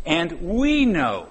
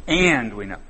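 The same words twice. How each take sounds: First: And we know, slow, with we lifted high; stress on we. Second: Said in the usual way. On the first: Shown as a demonstration. Preacher to church, weighting we in the verse. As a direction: slowly hang the verse on the word we. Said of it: "who's we?". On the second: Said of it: "sum it up right there for "and".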